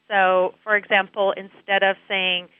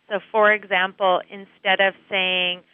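No difference in how they are said.

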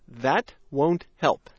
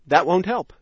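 First: The sentence is spoken slowly. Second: The sentence is spoken fast. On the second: "Now fast"

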